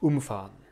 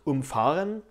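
First: The stress falls on the first syllable, um. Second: The stress falls on the second syllable, fah. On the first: It is the separable particle verb. "Bei einem Partikelverb wird diese Partikel ... betont" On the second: It is the inseparable prefix verb. "Wenn es ein Präfixverb ist, wird nämlich erst nach dem Präfix betont"

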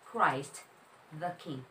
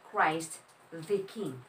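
First: 'The' is pronounced with a short 'uh' vowel. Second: 'The' is pronounced with a long 'ee' vowel. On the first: The speaker calls it right. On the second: The speaker calls it wrong. "hindi po siya"

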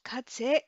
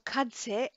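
The two takes are said the same way.

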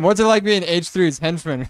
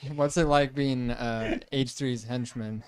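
First: It is said smoothly and confidently. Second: It is said hesitantly, with a filler pause.

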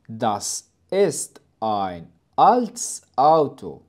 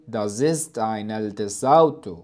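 First: Each vowel-initial word starts separately with a stop. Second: The words run together, vowels linked to preceding sounds. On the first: The speaker calls it right. "لم أقوم بدمج الحروف الصوتية" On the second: The speaker calls it wrong. "فأنا لم أقول"

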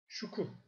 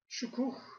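First: The word ends without an h sound. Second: The word ends with an audible h sound.

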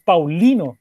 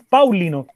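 First: The stress is on the second syllable. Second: The stress is on the first syllable. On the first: The speaker calls it right. "se carga en la segunda, en la penúltima" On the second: The speaker calls it wrong. "no se carga en Pau"

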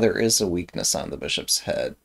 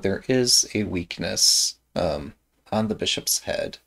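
First: The words are mumbled and run together. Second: The words are clearly and carefully articulated. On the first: The speaker calls it wrong. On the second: The speaker calls it right.

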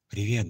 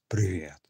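First: It is said in a soft, gentle voice. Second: It is said in a deep bass voice. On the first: "Нежный голос, то есть" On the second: "Басом это как?"

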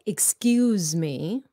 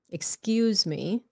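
The two takes are said the same way.

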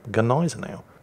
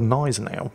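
First: The initial G is pronounced. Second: The initial G is silent. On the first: "Or do you pronounce the G?" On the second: "is that G silent?"

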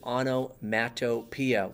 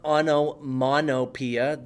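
First: The third syllable starts with a T sound. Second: The third syllable starts with an N sound. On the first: The speaker calls it right. "It is onomatopoeia" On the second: The speaker calls it wrong. "it's not onomonopoeia. The T doesn't all of a sudden make an N sound"

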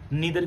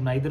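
First: The first vowel sounds like 'ee'. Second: The first vowel sounds like 'eye'. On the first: "नीदर की जगह" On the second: "कुछ लोग नाइदर बोलते हैं, वो भी ठीक है"

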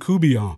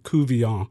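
First: The middle consonant is a b sound. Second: The middle consonant is a v sound. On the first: "I call him Coubillon" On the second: "Ted Couvillon with a V"

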